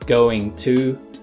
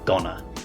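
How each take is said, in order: First: It is said as two full words. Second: It is reduced and run together as one word.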